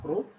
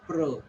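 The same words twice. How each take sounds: First: "pro" with a full O sound; rounded long-O "pro"; wrong syllable. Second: "pro" reduced to pruh; unrounded, neutral-vowel "pro"; correct syllable. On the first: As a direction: say "pro" like the word go. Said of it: "It is not pro". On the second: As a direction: say "pro" with a short schwa vowel. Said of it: "It is pro". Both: Shown as a demonstration.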